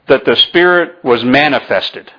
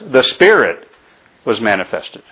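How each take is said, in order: First: The stress falls on the word manifested. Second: The stress falls on the word Spirit. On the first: The focus is on being made visible. "I emphasized that" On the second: The focus is on the source being revealed. "I want to emphasize"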